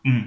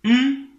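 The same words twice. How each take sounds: First: "hum" dropped onto a low level pitch. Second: "hum" pitched much higher and louder. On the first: Teacher showing students the low tone as a low hum. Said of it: "ton bas". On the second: Teacher showing students the high tone as a high, loud hum. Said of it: "pour le ton haut". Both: Shown as a demonstration.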